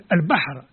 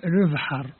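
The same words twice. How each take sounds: First: البحر said in standard Arabic; البحر with a clear Arabic ب; Arabic pronunciation. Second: البحر said the Kabyle way, ب softened toward ذ; Kabyle pronunciation. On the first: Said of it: "نقول". (البحر بالنطق العربي) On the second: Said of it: "نقول بالقبيلية". (البحر بالنطق القبائلي) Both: Shown as a demonstration.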